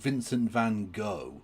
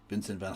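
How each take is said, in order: First: It ends in a plain, soft 'go' sound. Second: It ends in a harsh throat-clearing sound. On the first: The speaker calls it wrong. "It's certainly not" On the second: The speaker calls it right. "That is how you pronounce it in in uh, Dutch"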